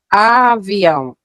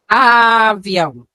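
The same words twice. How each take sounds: First: The first sound is said plainly, without emphasis. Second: The first sound 'a' is strongly emphasized.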